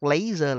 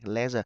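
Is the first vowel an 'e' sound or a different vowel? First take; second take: different vowel; e sound. First: The first vowel is not an 'e' sound. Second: The first vowel is an 'e' sound. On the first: The speaker calls it wrong. "Các bạn đọc laser là sai" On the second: The speaker calls it right. "Cái chỗ gạch chân này đọc âm e ha các bạn"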